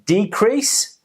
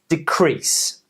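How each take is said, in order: First: The stress is on the first syllable. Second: The stress is on the second syllable. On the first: It is used as a noun. "the noun, we're stressing the first syllable" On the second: It is used as a verb. "On the verb, we're stressing the second syllable"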